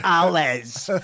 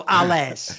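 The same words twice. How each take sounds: First: "À l'aise" in a deliberately British way, "al ez" with English vowels; anglicized French. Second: "à l'aise" said with a deliberately British accent, like "al ez"; anglicized French. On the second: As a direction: mangle the French "à l'aise" the English way. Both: Shown as a demonstration. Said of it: "said it in, like, a fucked up British way".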